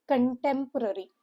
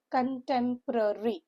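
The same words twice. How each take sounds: First: Said in the usual way. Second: "contemporary" parted into five syllables. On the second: Shown as a demonstration. Teacher showing students a five-syllable word, "contemporary" carefully split up. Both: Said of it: "word which is with five syllable".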